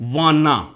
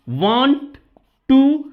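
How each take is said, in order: First: The two words merge into one reduced word. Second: Both words are said fully and separately. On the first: "इसे बोला जाता है वाना।" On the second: "जैसे कि वांट टू"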